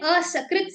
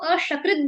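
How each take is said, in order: First: The middle consonant is a plain s sound. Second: The middle consonant is an sh sound. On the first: The speaker calls it right. "ये असकृत से आया है" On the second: The speaker calls it wrong. "अब मैं उसको अशकृत बोलूंगी तो मिल- बिल्कुल meaning ही कूड़ा कबाड़ा हो जाएगा"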